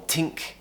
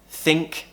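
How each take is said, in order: First: The word begins with a t sound. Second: The word begins with a th sound. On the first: The speaker calls it wrong. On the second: The speaker calls it right.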